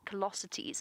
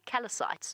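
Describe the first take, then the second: First: The word ends with a 'sit-ees' sound. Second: The word ends with a 'sites' sound. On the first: The speaker calls it right. "but it is callosities" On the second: The speaker calls it wrong. "I thought it was ischial ischial callocytes"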